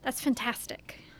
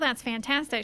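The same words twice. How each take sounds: First: It is said in an odd, unusual way. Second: It is said in an ordinary, everyday way. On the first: This imitates a film character's peculiar delivery. "she'll say" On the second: This is how most people say it. "instead of saying"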